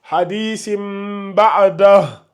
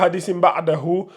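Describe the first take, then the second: First: The last word stops short without the final ending. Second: The last word ends with a full '-hu' ending. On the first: The speaker calls it right. "lis juste" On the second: The speaker calls it wrong. "faut pas lire"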